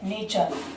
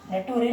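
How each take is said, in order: First: The middle consonant is a ch sound. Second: The middle consonant is a plain t sound. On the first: The speaker calls it right. "क्या है ये, नेचर" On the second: The speaker calls it wrong. "नेटूरी नहीं है ये"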